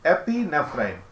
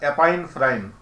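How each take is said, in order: First: The middle sounds like 'pee-nef', with 'nef'. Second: The middle sounds like 'pine', without 'nef'. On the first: The speaker calls it right. "जब नेफ्रा शब्द आता है तो गुर्दा" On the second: The speaker calls it wrong. "गलत है"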